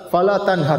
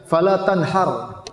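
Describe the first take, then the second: First: Fala tanhar with a light, breathy h in tanhar; correct Arabic reading. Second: Fala tanhar slow, with a harsh throaty h in tanhar; mock over-fluent reading. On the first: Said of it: "harusnya pakai H besar". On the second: Preacher mocking the overly fluent misreading, slow throaty h. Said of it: "saking fasihnya dia baca". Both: Shown as a demonstration.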